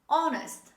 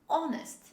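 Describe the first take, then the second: First: The word begins directly with a vowel. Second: The same.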